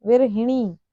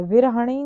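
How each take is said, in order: First: विरहिणी with i after ह; correct pronunciation. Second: विरहणी with a after ह; wrong pronunciation. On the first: Teacher correcting the error, विरहिणी with hi. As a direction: say विरहिणी, hi before the ṇi. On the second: Teacher showing the error, विरहणी with ha. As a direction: say विरहणी, ha before the ṇi. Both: Shown as a demonstration. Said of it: "विरहणी नहीं".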